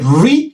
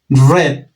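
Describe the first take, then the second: First: The vowel sounds like 'ee' in 'reed'. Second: The vowel sounds like 'eh' in 'red'. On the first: It is the present tense. "read en presente" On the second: It is the past tense. "como si fuera el color rojo, red, se pronuncia en pasado"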